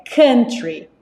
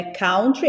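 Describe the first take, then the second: First: "country" with a short uh vowel, slowly; right country. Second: Country with an ow sound, like kawtry; wrong country. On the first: Teacher modelling the correct vowel for students. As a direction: say "country" as KUN-tree, slow and clear. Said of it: "é country". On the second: Teacher showing students the wrong vowel in country. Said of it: "Não é country". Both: Shown as a demonstration.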